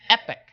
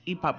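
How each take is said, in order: First: "epic" said EH-pick; short EH in "epic", stressed first syllable; official pronunciation. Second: "epoch" said EE-pock; own pronunciation. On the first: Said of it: "but it's pronounced epic". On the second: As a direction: say "epoch" with a long EE, then POCK. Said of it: "I would say that's epoch". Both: Shown as a demonstration.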